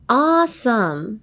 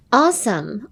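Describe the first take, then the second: First: "awesome" stretched out slowly, rising at the end; drawn-out pronunciation. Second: Said in the usual way. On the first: Shown as a demonstration. Host shows a listener how awesome is pronounced, drawn-out. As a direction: draw out both parts of "awesome" for a learner. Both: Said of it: "発音を教えてください".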